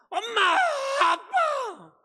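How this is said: It is said loudly, in a crying voice.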